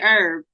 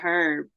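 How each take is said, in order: First: The word begins with a vowel, no h. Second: The word begins with an audible h sound. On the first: It is the ordinary word for a plant. "we normally say herb with no H sound" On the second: It is slang for a lame person. "but for that we used to say you a herb"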